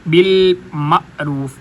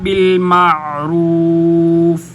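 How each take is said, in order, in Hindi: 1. ऐन को गले के अचानक झटके के साथ अदा किया जाता है। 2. ऐन गले से नरमी के साथ निकलता है, इसमें कोई झटका नहीं होता। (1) "ये गलत हो जाएगा" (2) "आइन को नरमी के साथ गले के दरमियान से अदा किया जाएगा। झटका भी नहीं दिया जाएगा"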